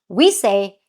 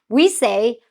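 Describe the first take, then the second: The two takes are said the same way.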